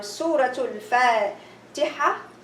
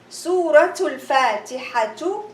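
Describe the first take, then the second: First: The last word ends with a soft 'h' sound. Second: The last word ends with a full 'tu' syllable. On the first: The reader stops at this word. "and I stop" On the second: The reader continues without stopping. "Suratul Fatihatu is very beautiful"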